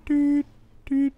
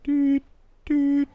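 The two takes are said the same way.

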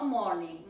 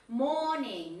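First: "morning" with the r pronounced; lower-pitched wrong "morning", r heard before n; wrong sounded R. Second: "morning" as "mo-ning", no r; correct silent R. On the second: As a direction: model "morning" with a long vowel, r left out. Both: Shown as a demonstration. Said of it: "no morning".

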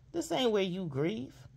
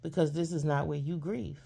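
First: "ain't" lifted higher on a rising tune, slower; slow down and lean on "ain't" with a rise; stressed slow repeat. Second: Said in the usual way. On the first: Shown as a demonstration. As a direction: drag out "This ain't where you grieve" higher and rising.

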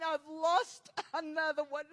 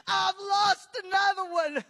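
First: Subdued grief, crumbling at the end; heartbroken Jesus. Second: Loud grieving cry; anguished Jesus. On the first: Preacher voicing the heart of Jesus, heartbroken and breaking. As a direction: voice breaking into sobs. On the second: Preacher crying out the heart of Jesus, anguished wail. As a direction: wail the loss out at full voice. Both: Retold or imitated. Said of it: "I could feel his heart saying".

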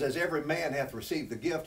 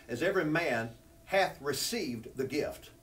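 First: Said in the usual way. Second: Slow, leaning on "hath" to mark the tense; slow it down and press "hath"; stress on hath. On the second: Shown as a demonstration. Preacher stressing the verse tense, slow and weighted. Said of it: "Now I notice tenses there".

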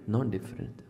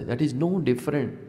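First: Nearly breathed, fading away; soft echo. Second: Said in the usual way. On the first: Acted. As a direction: let the repeat sink in softly.

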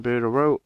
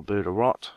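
First: "Burder Row" ending in an open O, no final T; alternative pronunciation. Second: "Burder Rot" ending in a short O and T; alternative pronunciation. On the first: Player guide names the town, "Burder Row" with silent T. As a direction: say "Burder Row" with the last word like "row". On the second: Player guide offers another reading, "Burder Rot" with sounded T. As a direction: say "Burder Rot" with the last word like "rot". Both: Shown as a demonstration. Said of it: "however you say it".

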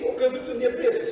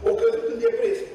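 First: Said in the usual way. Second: "căzut" lifted way up, pitch much higher; high emphatic repeat. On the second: Real, not acted. Preacher repeating to the congregation that she fell into depression, pitched high. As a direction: cry out the repeat high, to drive it home.

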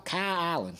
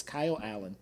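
First: "Kyle Allen" blended into one word, Kylallen; name run together. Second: Said in the usual way. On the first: Shown as a demonstration. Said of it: "I just make it one word". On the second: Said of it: "That's how you say it".

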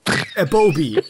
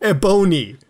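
First: Ebobi said slowly as eh-BOH-bee, a misreading of Ebony; misread name. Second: Ebony said as EH-buh-nee, fixing the misreading; corrected name. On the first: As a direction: stumble through Ebobi with a b sound in place of the n. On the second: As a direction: give the right name Ebony firmly. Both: Real, not acted.

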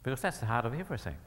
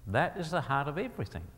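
First: Said in the usual way. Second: "is" given its own weight, unhurried; stress on "is". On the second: Real, not acted. Preacher driving home the point to listeners, stress on "is". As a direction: restate it deliberately, leaning on "is". Restated slowly for emphasis.

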